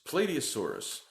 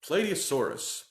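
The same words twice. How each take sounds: First: The first part sounds like the word plate. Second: The first part sounds like the word plate.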